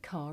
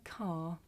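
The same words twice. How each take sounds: First: The final r sound links into the next word. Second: The final r sound is not pronounced. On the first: "you will hear this sound at the end of a word if the following word begins with a vowel" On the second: "In the first sentence, this is my car, you don't"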